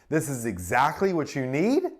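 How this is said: It is said hesitantly, sounding unsure. The speaker seems to be seeking approval. "Sounds unsure, like I'm seeking approval"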